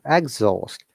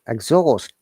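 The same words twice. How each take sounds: First: The pitch moves from high down to low. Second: The pitch moves from low up to high. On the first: It is used as a noun. "Noun intonation is it comes from upper to down" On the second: It is used as a verb. "intonation should be down to up"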